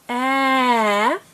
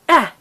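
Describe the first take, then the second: First: The sound is drawn out slowly. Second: The sound is said quickly.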